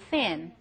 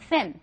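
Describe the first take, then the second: First: The word is drawn out long. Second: The word is said short and quick. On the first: "제가 지금 발음을 설명하느라고 길게 했는데" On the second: "사실 이거 짧은 발음이에요"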